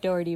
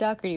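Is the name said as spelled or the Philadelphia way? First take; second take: as spelled; Philadelphia way. First: The name is read the way its spelling suggests. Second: The name is said with a Philadelphia pronunciation. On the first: The speaker calls it wrong. "it looks like Dougherty" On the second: The speaker calls it right. "it is said Dougherty if you're from Philly"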